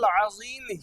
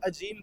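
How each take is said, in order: First: The middle consonant is a z sound. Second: The middle consonant is a j sound. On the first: The phrase keeps its intended meaning. The speaker calls it right. "सुबहाना रब्बियल अज़ीम ही कहा जाए" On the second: The meaning of the phrase becomes wrong. The speaker calls it wrong. "जीम से कह दिया, फिर माना गलत हो जाएगा"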